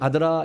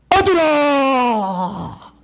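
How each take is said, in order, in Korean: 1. 평범하고 담담한 목소리로 부릅니다. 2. 쩌렁쩌렁 울리는 목소리로 부릅니다. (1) "우리는 아들아 이렇게 부르잖아요" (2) "이런 식으로 들려요. 근데 쩌렁쩌렁 하면서도 맑은 소리예요"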